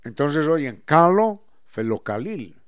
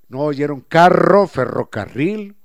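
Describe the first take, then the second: First: "calo, felocalil" with L in place of every R, slowly. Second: "carro, ferrocarril" with a strong trilled rr, loud and slow; rolled R. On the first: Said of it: "Y así pronuncian". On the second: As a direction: trill the rr in "carro" hard, slowly. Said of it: "No escuchan la R". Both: Shown as a demonstration.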